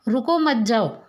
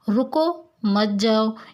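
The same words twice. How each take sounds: First: There is a pause after the second word. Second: There is a pause after the first word. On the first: The listener is asked to leave. "मतलब यहाँ पे आपके कहना चाहता है कि तुम रुको मत जाओ" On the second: The listener is asked to stay. "यह रुकने के लिए कह रहा है।"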